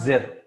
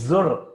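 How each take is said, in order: First: The vowel after z is a short i. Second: The vowel after z is a short u. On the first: The speaker calls it wrong. "No, it's not zir" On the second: The speaker calls it right. "It's zur"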